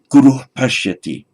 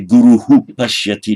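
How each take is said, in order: First: The first word ends plainly with no echo vowel. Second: The first word ends with an added echo syllable. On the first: The speaker calls it right. "it's just say guru pashyati" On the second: The speaker calls it wrong. "you would not say guruhu pashyati"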